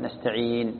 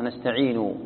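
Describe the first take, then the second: First: نستعين closed on a still n, nasta'iin; stop on sukun. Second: نستعين said with its damma, nasta'iinu; full final vowel. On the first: Teacher showing the stop, stop on sukun. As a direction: end نستعين on the n, no u. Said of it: "تقف بالساكن". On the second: Teacher giving the word's original form, full final vowel. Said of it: "فإذا وقفت تقف بالساكن". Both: Shown as a demonstration.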